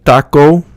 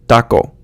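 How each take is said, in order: First: The final vowel glides into a w sound. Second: The final vowel is cut off short. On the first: The speaker calls it wrong. "like taco in English where you get that W sound at the end" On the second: The speaker calls it right. "It's like you're cutting it off"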